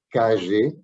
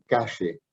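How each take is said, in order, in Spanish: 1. La consonante del medio es una 'zh' sonora, con zumbido. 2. La consonante del medio es una 'sh' sorda, sin zumbido. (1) "Yo sigo hablando de calle porque dejé Argentina hace cuarenta años" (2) "en Buenos Aires, se escucha shh por todos lados"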